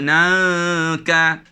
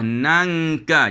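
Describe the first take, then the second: First: The nasal floats, not formed at the tongue back. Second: The nasal is made at the back of the tongue. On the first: The speaker calls it wrong. "Jangan sebut nangka" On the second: The speaker calls it right. "sebut buah nangka"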